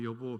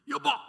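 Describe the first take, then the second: First: It is said gently and affectionately. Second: It is shouted urgently and desperately.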